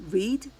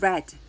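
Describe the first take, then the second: First: The vowel is long, like 'reed'. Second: The vowel is short, like 'red'. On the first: It is the present tense form. "현재형이랑 과거형이랑 스펠링이 같아요. 근데 어, 발음이 달라요" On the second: It is the past tense form. "과거형은"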